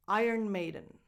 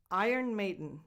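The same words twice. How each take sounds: The two takes are said the same way.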